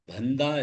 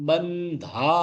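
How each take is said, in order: First: The first syllable is said weakly, without emphasis. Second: The first syllable is said with strong emphasis. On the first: The speaker calls it wrong. "பந்தா இல்ல" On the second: The speaker calls it right. "பமில் ராகாத் கொடுத்து"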